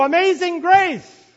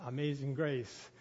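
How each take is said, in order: First: Higher, shouted hymn title; loud shout. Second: Said in the usual way. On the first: Retold or imitated. Song leader shouting the hymn title, loud. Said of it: "he says in a loud voice". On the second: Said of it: "in a loud voice".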